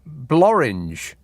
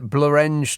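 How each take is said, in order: First: The name is said to rhyme with orange. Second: The name is said not rhyming with orange. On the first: The speaker calls it wrong. "unless you're pronouncing it Blorange" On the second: The speaker calls it right. "that looks like Blorenge to me"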